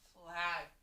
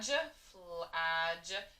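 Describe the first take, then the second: First: The last sound is a hard g sound. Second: The last sound is a soft j sound. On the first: The speaker calls it right. "make it a regular G, a hard G" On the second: The speaker calls it wrong. "tried to sound it out as a ja"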